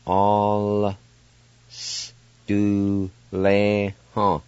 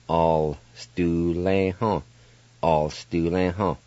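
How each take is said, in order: First: All stew lay home drawn out very slowly, home falling long; slow teaching read of a Cherokee word. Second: All stew lay home said more smoothly, home falling; natural pace Cherokee. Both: Shown as a demonstration. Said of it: "like this".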